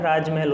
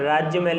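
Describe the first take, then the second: First: राजमहल with a simple j, no y; correct pronunciation. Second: राज्यमहल with an extra y after राज; wrong pronunciation. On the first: Teacher gives the right spelling, without the y. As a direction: go straight from राज to महल. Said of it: "राजमहल होता है". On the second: Teacher rejects a misspelling, sounding the extra y. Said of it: "राज्यमहल नहीं होता है". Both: Shown as a demonstration.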